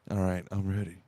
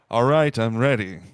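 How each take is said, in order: First: It is said at a normal volume. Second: It is said noticeably louder.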